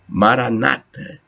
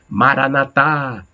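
First: The stress is on the second-to-last syllable. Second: The stress is on the last syllable. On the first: "Outros dão na antepenúltima, na penúltima, aliás" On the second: "Tem outras pessoas que dão acento na última sílaba"

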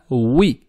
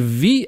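First: The w sound is made with rounded lips. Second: The w sound is made without rounded lips. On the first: The speaker calls it right. "губы округляем, выпячиваем вперед" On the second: The speaker calls it wrong. "не ви"

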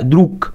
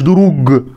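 First: The final consonant is a voiceless k sound. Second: The final consonant is a voiced g sound. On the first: The speaker calls it right. "لأ دروك" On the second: The speaker calls it wrong. "لأ مش دروج"

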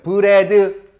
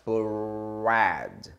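First: The r is a tapped, Korean-style sound. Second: The r is said with rounded lips. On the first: The speaker calls it wrong. "이걸 또 이런 분들이 있어요" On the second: The speaker calls it right. "입술을 최대한 오므리고 하면 R 발음 나요"

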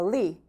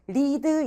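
First: The final d sound is dropped. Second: The final d sound is clearly released. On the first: "그러니까 lead" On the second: "끝에 lead 이러잖아요. 이거 더 귀찮아"

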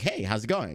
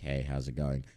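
First: The voice is high-pitched and lively. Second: The voice is flat and monotone. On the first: This is the habit picked up from making videos. "I've had this more high-pitched tone in regular conversations" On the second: This is the natural everyday way of talking. "That I used to do"

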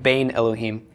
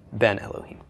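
First: The first word has a long ay vowel. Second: The first word has a short e vowel. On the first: The speaker calls it wrong. "Instead of Bain Elohim" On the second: The speaker calls it right. "Ben Elohim would be the same thing"

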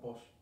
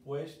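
First: The vowels merge into a single 'o' sound. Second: The word has the full vowel pair 'ue'. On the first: "decimos pos. Porque la U y la E juntas hacen la O para nosotros" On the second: "en vez de decir pues"

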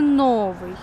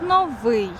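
First: The stress is on the first syllable. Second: The stress is on the second syllable. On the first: The speaker calls it wrong. "але аж ніяк не новий" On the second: The speaker calls it right. "Слово «новий» має наголос на другий склад"

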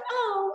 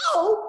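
First: It is said softly and flatly. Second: It is said loudly and very dramatically.

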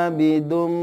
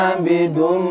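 No difference in how they are said.

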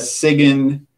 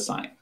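First: The word is said with a g sound. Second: The word is said with no g sound. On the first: The speaker calls it wrong. "not a sign" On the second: The speaker calls it right. "it's a sign"

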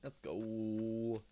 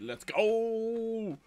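First: It is said with dry irony. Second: It is shouted with genuine frat-boy enthusiasm.

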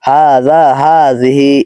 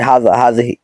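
First: The vowels are long and stretched. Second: The vowels are short and not stretched. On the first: The speaker calls it right. "এরকম হবে উচ্চারণটা" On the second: The speaker calls it wrong. "আমরা বলি হাযা হাযিহি এরকম না"

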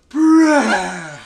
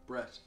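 First: The name is said with more energy. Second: The name is said flatly, with little energy.

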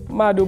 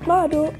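First: The word is said in a plain, ordinary voice. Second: The word is said in a changed, exaggerated voice. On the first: The speaker calls it right. "you could just say Mado" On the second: The speaker calls it wrong. "but they say Mado"

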